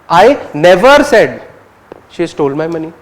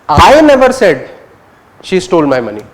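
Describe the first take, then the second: First: The word "never" carries the main stress. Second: The word "I" carries the main stress. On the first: "you're focusing on never" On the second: "You're focusing on I"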